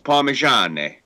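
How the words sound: The word ends in an 'e' vowel sound. This is how it is said in the north. "up north, it's Parmigiane"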